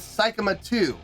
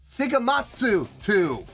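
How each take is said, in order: First: The name is said without a 'tsu' sound. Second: The name is said with a 'tsu' sound. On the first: The speaker calls it wrong. "I've been saying the name of a band wrong" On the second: The speaker calls it right. "It's Sigamatsu two. Why didn't anybody tell me about the Su"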